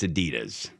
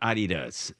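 First: The name is said the American way. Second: The name is said in a non-American way. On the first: The speaker calls it right. "You're in America. It's Adidas" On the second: The speaker calls it wrong. "It's not Adidas"

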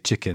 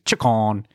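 First: The word is said in a plain, neutral accent. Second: The word is said in a Liverpool accent. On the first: "you just don't say chicken" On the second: "they say chicken. It's different"

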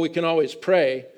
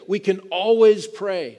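First: It sounds resigned and dismissive. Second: It sounds confident and emphatic. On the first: Prayer is a last resort. The speaker calls it wrong. "We shouldn't say, well" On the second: Prayer is a first priority. The speaker calls it right. "but we should say"

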